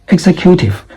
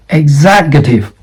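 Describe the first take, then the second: First: EXECUTIVE said as "ex-e-CUTE-ive"; wrong stress. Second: EXECUTIVE said as "ig-ZEK-yuh-tiv"; correct stress. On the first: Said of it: "not executive". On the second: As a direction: stress the second syllable of EXECUTIVE. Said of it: "This is executive". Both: Shown as a demonstration.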